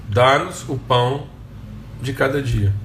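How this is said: It is said as a calm affirmation.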